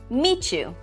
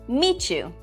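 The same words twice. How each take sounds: First: The sounds between the words blend into one. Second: The sounds between the words blend into one.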